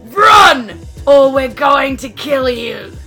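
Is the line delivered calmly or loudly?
loudly. The line is shouted loudly. "Can you say that louder?"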